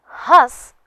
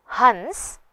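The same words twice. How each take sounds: First: हंस high and loud, vowel nasalised without n. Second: हंस with clear n before s; bindu pronunciation. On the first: Teacher explains the verb, हंस with nasalised vowel. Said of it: "हंसना क्रिया है". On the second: Teacher explains the bird word, हंस with full n. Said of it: "पक्षी है". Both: Shown as a demonstration.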